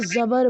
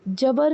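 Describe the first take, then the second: First: The word begins with a z sound. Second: The word begins with a j sound. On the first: The speaker calls it right. "उसको ज़बर बोलेंगे" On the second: The speaker calls it wrong. "जबर नहीं बोलेंगे"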